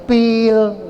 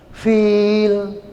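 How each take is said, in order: First: The word begins with a p sound. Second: The word begins with an f sound. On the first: The speaker calls it wrong. "Salah pil" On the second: The speaker calls it right. "Fil, jangan pil"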